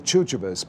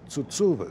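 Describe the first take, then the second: First: The name is said with English-style sounds. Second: The name is said with Greek 'ts' sounds. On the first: This is the usual way people say it. "for some reason we say" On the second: This is the authentic original form. "the really Greek way would be"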